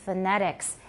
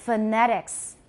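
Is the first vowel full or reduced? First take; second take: reduced; reduced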